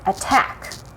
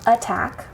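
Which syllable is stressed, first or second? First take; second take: second; first. First: The stress is on the second syllable. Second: The stress is on the first syllable. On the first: The speaker calls it right. "we say attack, the syllable that we stress is the second one" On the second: The speaker calls it wrong. "We don't say attack"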